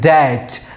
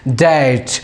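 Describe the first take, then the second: Both takes have the same delivery.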